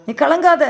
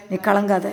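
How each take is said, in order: First: Raised, emphatic repeat of கலங்காத; firm declaration. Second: Gentle self-comfort. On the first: Believer commanding their own soul, emphatic. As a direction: tell your soul கலங்காத with force. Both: Shown as a demonstration. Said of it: "உங்க பேரை போட்டு சொல்லுங்க".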